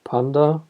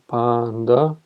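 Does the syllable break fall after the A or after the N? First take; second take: after N; after A. First: The syllables split as pan, then da. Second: The syllables split as long pa, then nda. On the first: The speaker calls it wrong. "and not panda" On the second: The speaker calls it right. "it's actually panda"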